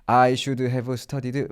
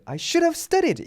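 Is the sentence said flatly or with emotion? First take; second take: flatly; with emotion. First: It is said flatly without feeling. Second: It is said with regretful emotion. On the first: The speaker calls it wrong. "이렇게 외우시는 분들은 없겠지만" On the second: The speaker calls it right. "이렇게 감정 실어서"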